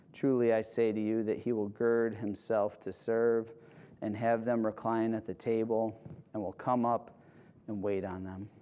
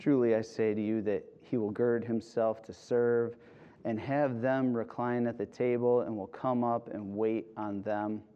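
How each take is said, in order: Both takes have the same delivery.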